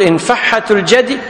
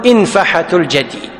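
First: إنفحة الجدي said infaHHat al-jadi; doubled consonant variant. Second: إنفحة الجدي said infaHat al-jadi, single H; lightened variant. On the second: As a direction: say إنفحة lightly, without doubling the H. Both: Shown as a demonstration. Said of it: "هذا معنى وتخفف".

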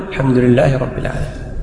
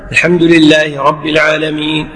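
First: Soft, low echo of the imam; follower's subdued repetition; follower repeating. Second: Imam's steady lead line; imam reciting. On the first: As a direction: repeat it under your breath after the imam. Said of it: "أنت تقول". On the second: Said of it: "يتابع إمامه". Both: Shown as a demonstration.

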